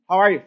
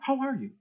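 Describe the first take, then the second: First: It sounds careless and routine. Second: It sounds caring and sincere.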